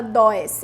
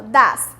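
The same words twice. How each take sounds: First: Does said as dois, the spelling sound; wrong pronunciation. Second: Does said as das with a short a; correct pronunciation. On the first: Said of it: "a gente não fala does". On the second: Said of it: "a gente fala does". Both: Shown as a demonstration.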